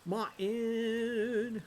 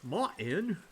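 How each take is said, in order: First: MARTIN held long and high; drawn-out call. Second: MARTIN shorter with a rising end; questioning call. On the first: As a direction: stretch MARTIN on a raised note. Calls to game character, drawn out. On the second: Calls again, short and questioning. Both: Acted.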